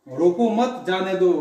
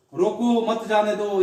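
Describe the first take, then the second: First: Slow, रोको मत grouped, then जाने दो; pause after मत. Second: Slow, with रोको set apart from मत जाने दो; pause after रोको. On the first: Teacher explaining no need to stop him, pause after मत. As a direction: lean on मत and break before जाने दो. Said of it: "अब उसे रोकने की जरूरत नहीं है". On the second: Teacher explaining he must be stopped, pause after रोको. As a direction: break after रोको, then मत जाने दो as one phrase. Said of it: "उसे मत जाने दो". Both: Shown as a demonstration.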